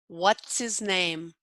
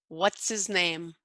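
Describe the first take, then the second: Both takes have the same delivery.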